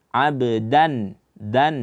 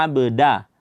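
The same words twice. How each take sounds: First: "abdan" with d at the base of the front teeth; tongue tip to upper teeth for the d of "abdan"; slow, dental "dan"; correct dal. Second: "abda" with the d made on the palate; tongue tip back on the palate for d in "abda"; wrong dal. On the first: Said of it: "ujung lidah berjumpa dengan pangkal gigi seri". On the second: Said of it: "bukan dengan langit lah". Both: Shown as a demonstration.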